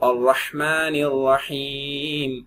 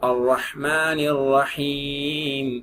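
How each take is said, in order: No difference in how they are said.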